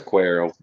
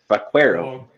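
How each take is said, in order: First: It is said with a plain English accent. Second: It is said with a Spanish accent.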